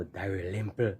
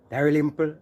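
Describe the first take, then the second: First: Low, soft "Dalrymple" in dismay; dismayed repeat. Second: Loud, raised call of the name. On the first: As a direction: drop "Dalrymple" low with disappointment. Repeats name after "oh no. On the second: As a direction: call "Dalrymple" out like a roll call. Announcing next name on list. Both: Real, not acted.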